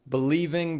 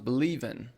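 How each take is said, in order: First: The final g sound is pronounced. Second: The final g sound is dropped.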